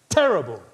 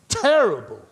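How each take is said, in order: Both takes have the same delivery.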